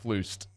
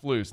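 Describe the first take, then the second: First: The word ends with an added t sound. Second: The word ends without a t sound. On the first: The speaker calls it wrong. "I think you threw a T in on the end" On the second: The speaker calls it right. "it's just Flus"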